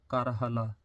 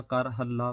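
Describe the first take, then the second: First: ਕਰ ਹਲਾ with a single, undoubled ਲ; correct pronunciation. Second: ਕਰ ਹੱਲਾ with a long double ਲ; doubled consonant. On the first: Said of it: "ਤੇ ਇਸ ਕਰਕੇ ਏਦਾਂ ਪੜ੍ਹਨਾ". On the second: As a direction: hold the l in ਹੱਲਾ, loudly. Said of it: "ਅੱਧਕ ਲਾ ਕੇ ਨਹੀਂ ਪੜ੍ਹਨਾ". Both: Shown as a demonstration.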